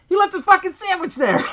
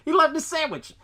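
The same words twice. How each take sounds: First: High, loud incredulous shout; outraged disbelief. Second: High, laughing repeat of the outrage; laughing disbelief. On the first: Outraged at the scientist's sandwich. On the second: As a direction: laugh it out, still amazed. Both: Real, not acted.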